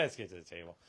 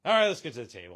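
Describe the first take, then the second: First: Soft, low aside; low-key repeat. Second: Loud call to move on; brisk announcement. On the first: Host repeating the cue to move on, quietly. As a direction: drop it down, quieter and lower. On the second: Host moving the show to the table, announcing loudly. Calling the move to next segment. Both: Real, not acted.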